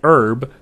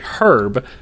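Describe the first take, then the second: First: It is said in an American accent. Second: It is said in a British accent. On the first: "We say herb" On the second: "they say herb"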